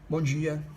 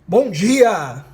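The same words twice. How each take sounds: First: It is said quietly with low energy. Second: It is said loudly with high energy. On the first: The speaker calls it wrong. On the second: The speaker calls it right.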